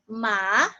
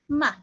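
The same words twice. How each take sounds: First: The pitch rises from lower to higher. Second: The syllable is very light and quick. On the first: "the second tone is going up" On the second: "it sounds like a very light and very quick word"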